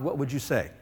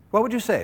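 First: Said in the usual way. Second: "What" hit higher, asked again with more push; pressing question. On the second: Shown as a demonstration. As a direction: lean harder on "What" the second time.

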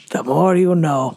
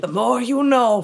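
First: Said in the usual way. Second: PSA slogan. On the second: Acted. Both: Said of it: "Well, that sounds normal".

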